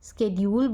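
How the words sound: It is said with an American pronunciation. "स्केड्यूल या स्केड्यूल बोलते हैं अमेरिकन इंग्लिश में"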